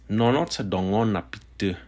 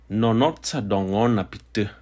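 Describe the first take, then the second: The two takes are said the same way.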